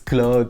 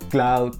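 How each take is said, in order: First: The name is given a French pronunciation. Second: The name is given a Dutch pronunciation. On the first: "it's Claude from the French" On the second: "like a more Dutch kind of pronunciation"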